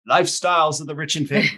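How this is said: It is said in a put-on Australian accent.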